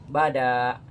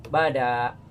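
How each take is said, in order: Both takes have the same delivery.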